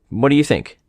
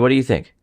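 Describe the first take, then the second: First: It sounds needy and eager for approval. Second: It sounds relaxed and conversational. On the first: He wants her to confirm that what he said is good. The speaker calls it wrong. "said in a way where he's seeking that validation from her" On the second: He is simply asking her opinion. The speaker calls it right. "he's just having a conversation with her about it"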